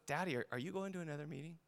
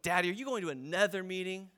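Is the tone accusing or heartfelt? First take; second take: heartfelt; accusing. First: It sounds sincere and heartfelt. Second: It sounds accusing and loaded.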